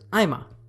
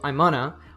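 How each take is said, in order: First: The phrase shrinks to 'I'm' plus a single vowel. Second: 'Going to' is squeezed into a two-syllable 'gonna'. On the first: "the third level connected speech reduction here is I'm a" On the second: "On the first level, it reduces to I'm gonna"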